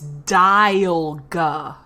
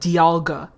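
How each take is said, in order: First: The start sounds like the word 'dial'. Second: The start does not sound like 'dial'. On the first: This matches the pun on a clock dial. "the pun is Dialga. Like the dial of a fucking clock" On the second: This is how people commonly say the name. "People pronounce it Dialga"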